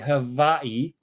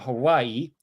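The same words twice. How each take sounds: First: It is said with a native Hawaiian-style pronunciation. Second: It is said with the usual English pronunciation. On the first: The speaker calls it right. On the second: The speaker calls it wrong.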